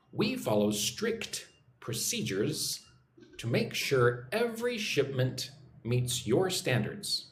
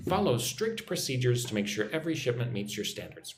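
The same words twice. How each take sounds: First: Slow, measured repeat-after-me delivery; slow model reading. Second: Said in the usual way. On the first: Shown as a demonstration. Teacher giving learners a sentence to repeat, slow and measured. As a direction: model it slowly, pausing between phrases. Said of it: "Follow along with me. Practice your English".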